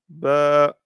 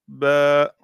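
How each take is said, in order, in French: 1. La voyelle est tenue pendant deux temps. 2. La voyelle est tenue pendant deux temps.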